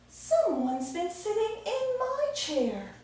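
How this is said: It is said in a mommy bear voice.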